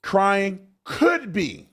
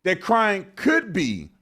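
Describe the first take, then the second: First: Slow, leaning on "could"; stress on could. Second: Slow, "could" hit hardest; stress on could. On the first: Quoting the other guest slowly, stressing "could". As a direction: drag out "Crying could be" with weight on "could". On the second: Repeating the guest's words, leaning on "could". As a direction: spell out "that crying could be", punching "could". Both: Retold or imitated. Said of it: "That's what he said".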